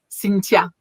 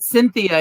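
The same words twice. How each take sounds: First: The middle sound is a plain t. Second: The middle sound is a soft th. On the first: "it's Cynthia with a T" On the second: "they don't say the th"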